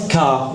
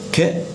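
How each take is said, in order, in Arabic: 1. يتبعه حرف العلة a. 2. يُنطق صوت k وحده دون حرف علة. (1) "نوت كا" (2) "ك ك ك"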